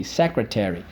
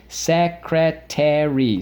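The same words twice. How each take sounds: First: Said in the usual way. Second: "Secretary" slow and raised, SEC, CREH, TEH, REE; four careful separate beats on "Secretary"; syllable by syllable. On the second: Shown as a demonstration. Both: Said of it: "So let's go".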